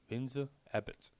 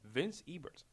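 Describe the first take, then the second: First: The final r in the name is dropped. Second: The final r in the name is pronounced.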